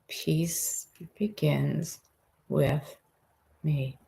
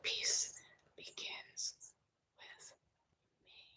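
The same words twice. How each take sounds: First: It is said in a full, normal voice. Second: It is whispered without any voice.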